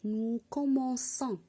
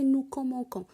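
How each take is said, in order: First: The c is sounded like s. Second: The c is sounded like k. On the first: The speaker calls it right. "j'ai ajouté la cédille dans C pour prononcer" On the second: The speaker calls it wrong. "Et non pas prononcer"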